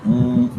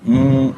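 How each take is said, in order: No difference in how they are said.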